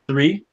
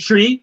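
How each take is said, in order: First: It is said with an American accent. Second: It is said Jamaican-style, with a t sound. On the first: "You ain't Jamaican, man" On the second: "You want me to say tree?"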